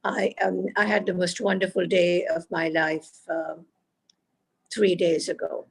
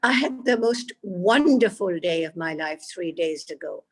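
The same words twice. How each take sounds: First: Even stress, "wonderful" left unmarked; level line with no word picked out, not even "wonderful"; without emphasis. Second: Big rise and fall on "wonderful"; emphasis on WONDERFUL. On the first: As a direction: say "wonderful" no stronger than the other words. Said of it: "here is a sentence without emphasis". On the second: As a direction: lean hard on "wonderful" to bring it alive. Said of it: "Now I'm saying it with emphasis". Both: Shown as a demonstration.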